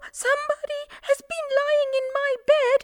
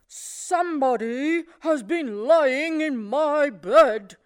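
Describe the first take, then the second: First: It is said in a small voice. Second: It is said in a deep, gruff voice.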